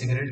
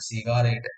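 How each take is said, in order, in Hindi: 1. स्वर रोज़मर्रा के तरीके में हल्के कर दिए जाते हैं। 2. हर स्वर को पूरा बोला जाता है, अक्षर-दर-अक्षर। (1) "हम सिगरेट को नहीं" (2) "हम सिगारेट याद रखते हैं"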